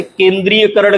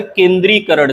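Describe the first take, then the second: First: केंद्रीयकरण with ya, ken-dree-ya-karan; wrong pronunciation. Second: केंद्रीयकरण without ya, ken-dree-karan; correct pronunciation. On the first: Teacher showing the mistake, केंद्रीयकरण said with ya. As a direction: sound the ya in केंद्रीयकरण. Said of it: "गलत है". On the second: Teacher correcting it, केंद्रीयकरण said as ken-dree-karan. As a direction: drop the ya from केंद्रीयकरण. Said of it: "सही है". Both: Shown as a demonstration.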